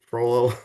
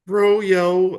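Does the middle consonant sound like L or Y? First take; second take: L; Y. First: The middle consonant is an L sound. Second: The middle consonant is a Y sound.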